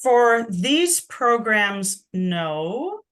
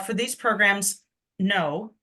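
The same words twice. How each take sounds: First: The voice rises at the end. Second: The voice falls at the end.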